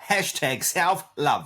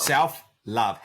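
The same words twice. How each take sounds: First: "self-love" said slowly and drawn out; stress on self-love. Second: Said in the usual way. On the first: Shown as a demonstration. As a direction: stretch out "self-love" deliberately.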